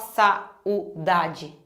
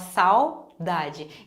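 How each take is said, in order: First: The a and u are split into two syllables. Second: The a and u are joined in one syllable. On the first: The speaker calls it wrong. "a gente não fala saudade" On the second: The speaker calls it right. "a gente fala saudade... Então elas vão ficar juntas"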